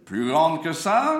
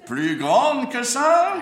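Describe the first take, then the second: First: High, slow ringmaster coaxing. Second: Very high, slow, loud insistence; exasperated ringmaster. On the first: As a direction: draw it out, asking wider. Coaxing the clown to open wider. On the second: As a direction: stretch it out in exasperation. Insisting the clown open wider. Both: Acted.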